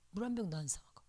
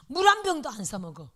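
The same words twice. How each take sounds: First: Whispered 물 한 병도 안 사 먹어, soft and voiceless. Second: Emphatic. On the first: Pastor's wife repeating to herself, whispered. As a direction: say it again under the breath. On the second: Pastor's wife insisting she never buys water, emphatic. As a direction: stress on 한, said louder. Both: Shown as a demonstration. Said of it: "repeated louder then whispered".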